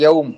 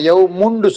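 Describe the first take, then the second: First: The word ends without the -un ending. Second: The word ends with a pronounced -un ending. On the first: A native speaker says it. "தன்மீனோட உச்சரிக்க மாட்டான். கடைசி ஹரக்கத்தை பண்ண மாட்டான்" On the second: A non-native speaker says it. "நாங்க யவ் முண்டு சொல்லுவோம்"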